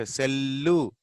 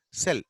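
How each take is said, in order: First: "cellu" with a long L and an added u; slow "cellu", both L's sounded; doubled L, mistaken. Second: Said in the usual way. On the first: Shown as a demonstration. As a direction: drag the double L into an oo ending on "cellu". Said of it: "We don't say cellu". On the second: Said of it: "cell, that's all".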